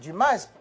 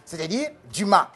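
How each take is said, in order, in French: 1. Le s final est prononcé. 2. Le s final est muet. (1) "quand il y a S à la fin, on doit dire euh, Dumas, puisque vous dites ananas" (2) "que j'ai la prononciation française"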